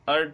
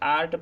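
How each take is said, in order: First: The first vowel is a short 'a'. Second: The first vowel is a long open 'aa'. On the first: The speaker calls it wrong. "ए को अगर अ बोलेंगे ... जो कि गलत है" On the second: The speaker calls it right. "आ बोलेंगे।"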